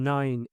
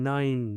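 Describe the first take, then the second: The two takes are said the same way.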